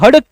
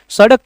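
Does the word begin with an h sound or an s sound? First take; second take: h sound; s sound. First: The word begins with an h sound. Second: The word begins with an s sound. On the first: "हड़क कहते हैं" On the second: "सड़क को"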